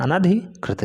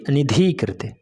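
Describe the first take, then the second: First: अनधिकृत said with short अ after न, clearly; अनधिकृत, no इ sound after न; correct form. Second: अनिधिकृत said slowly with an इ after न; slow wrong version अनिधिकृत; wrong form. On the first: (अनधिकृत — न के बाद इ नहीं) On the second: (अनिधिकृत — गलत रूप, धीरे से) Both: Shown as a demonstration. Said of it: "ना कि अनिधिकृत".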